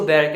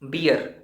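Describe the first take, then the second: First: The vowel sounds like the one in 'bare'. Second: The vowel sounds like the one in 'beer'. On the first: The speaker calls it right. "इसको बेयर कहते हैं" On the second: The speaker calls it wrong. "आप गलत हैं"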